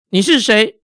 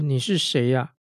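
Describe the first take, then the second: First: The question sounds startled and forceful. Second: The question sounds puzzled and uncertain. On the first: The asker is startled and alarmed. "或者是用震慑的口气问" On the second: The asker is bewildered by what is happening. "假设如果他是用困惑的口气问"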